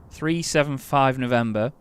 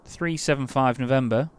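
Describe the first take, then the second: No difference in how they are said.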